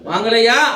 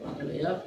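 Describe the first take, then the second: First: The vowels are stretched out longer, like a call. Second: The vowels are short and not drawn out. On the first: A seller calls out to buyers. The speaker calls it right. "அப்ப அந்த இடத்துல எப்படி சொல்லி ஆகணும்? வாங்கலையா அப்படின்னு சொல்லிதான் ஆகணும்" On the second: The call would not be heard from far away. The speaker calls it wrong. "ஒரு குறிலோட இப்போ வாங்கலையா அப்படின்னா உங்களுக்கு கேட்குமா?"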